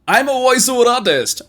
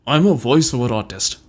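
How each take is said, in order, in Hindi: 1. यह उत्साहित लगता है, जैसे कोई ओवर-द-टॉप अनाउंसर बोल रहा हो। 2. यह गुस्से वाला लगता है, दांत भींचकर बोला गया है। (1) "over the top, अनाउंसरी style, excited होकर बोलना है" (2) "इसको आपको गुस्से में पढ़ना है"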